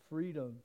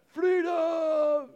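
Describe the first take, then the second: First: It is said plainly in a normal voice. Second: It is shouted like the Braveheart battle cry.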